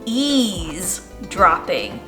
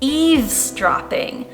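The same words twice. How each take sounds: First: The first part does not sound like eaves. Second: The first part sounds like the word eaves. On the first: The speaker calls it wrong. "I used to say eavesdropping, but that's not right" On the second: The speaker calls it right. "One of the words that I can now pronounce correctly"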